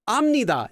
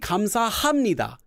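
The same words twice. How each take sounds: First: The h sound is nearly silent. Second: The h sound is clearly pronounced. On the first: The speaker calls it right. "is fine" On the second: The speaker calls it wrong. "it's like you're stopping here"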